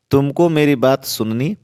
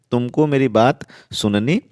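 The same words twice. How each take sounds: The two takes are said the same way.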